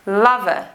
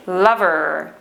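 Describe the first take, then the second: First: Lover as "luv-uh", final R silent; received pronunciation. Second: Lover as "luverr", R drawn out; West Country rhotic R. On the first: Teacher contrasting accents for learners, received pronunciation. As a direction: leave the R off lover, RP style. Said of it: "In received pronunciation, we do not pronounce the letter R". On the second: Teacher contrasting accents for learners, West Country rhotic R. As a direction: hold the curled R ending lover. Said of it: "but in the West Country accent, we do, the rhotic R". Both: Shown as a demonstration.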